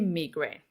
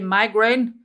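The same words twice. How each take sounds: First: It is said the South African way. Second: It is said the American way.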